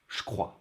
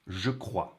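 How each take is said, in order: First: The je becomes a voiceless sh sound. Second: The je keeps a voiced zh sound. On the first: "in everyday French" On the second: "if I say the sounds separately"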